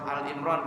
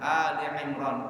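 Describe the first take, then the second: First: No vowel is heard between Al and Imran. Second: A vowel is heard between Al and Imran. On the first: The speaker calls it wrong. "Orang banyak salah baca surah Al Imran" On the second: The speaker calls it right. "bacanya Ali ya, bukan Al Imran"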